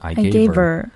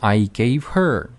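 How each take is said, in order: First: The h in her is dropped. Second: The h in her is clearly pronounced.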